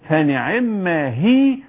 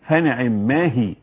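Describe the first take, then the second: First: The 'ma' is joined into one word. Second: The 'ma' is said as a separate word. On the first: The speaker calls it right. "قل فنعما هي" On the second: The speaker calls it wrong. "ولا تقل فنعم ما هي، لا نعم ما هي ضيعت المعنى خالص"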